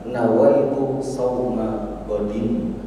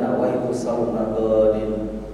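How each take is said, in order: First: The vowel in the last word is short. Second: The vowel in the last word is drawn out long. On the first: It means fasting for tomorrow. The speaker calls it right. "yang benar ... Mungkin yang pendek, jangan dipanjangin" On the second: It means the fast of someone eating breakfast. The speaker calls it wrong. "Jangan ... Salah"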